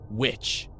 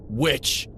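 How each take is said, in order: First: A touch of a snarl on Witch, rising; mild snarl. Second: Spat accusation. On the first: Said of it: "Gracie Lockhart snarled at him". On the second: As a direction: spit out the word Witch! with rising venom. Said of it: "Gracie spat in my face". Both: A narrator's reading.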